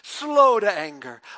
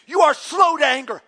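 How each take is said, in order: First: It is said in a calm, reverent tone. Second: It is said in a furious, resentful tone.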